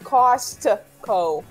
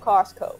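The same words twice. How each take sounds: First: It is said with an extra T sound. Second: It is said without an extra T sound. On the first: The speaker calls it wrong. "not Costco" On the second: The speaker calls it right. "There's no T in there"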